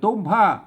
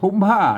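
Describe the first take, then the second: First: The first consonant is an unaspirated t sound. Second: The first consonant is an aspirated t sound. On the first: The speaker calls it right. "มันต้องอ่านว่าตุ้มผ้านะครับ" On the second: The speaker calls it wrong. "ไม่ใช่อ่านว่าทุ้มผ้านะครับ"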